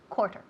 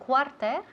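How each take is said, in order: First: The first vowel sounds like an O. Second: The first vowel does not sound like O. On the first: The speaker calls it right. "The first syllable sounds like an O" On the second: The speaker calls it wrong. "Instead of cuarter"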